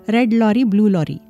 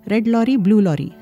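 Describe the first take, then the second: Both takes have the same delivery.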